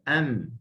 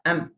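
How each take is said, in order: First: The lips meet lightly and the sound continues. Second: The lips press hard and the sound stops. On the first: The speaker calls it right. "Am bersahaja" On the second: The speaker calls it wrong. "Kalau kuat, ... dia akan terus berhenti suara"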